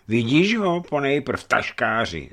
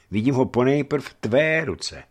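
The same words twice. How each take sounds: First: Drawn-out, high, disbelieving taunt; mild roar. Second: Higher, pointed denial stressing "tvé"; firm retort. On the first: Hunchback echoing the merchant's denial, roaring in mock disbelief. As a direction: throw the words back, high and slow. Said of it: "zařval hrbáč". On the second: Accused merchant turning it on the hunchback, firm retort. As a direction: push back on the accuser with "tvé". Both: A narrator's reading.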